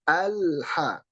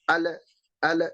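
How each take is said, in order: First: The l is held without release. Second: The l is released with a bounce. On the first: The speaker calls it right. "Ketika nempel tidak dipan, tidak dilepas" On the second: The speaker calls it wrong. "memantulkan pengucapan huruf lam"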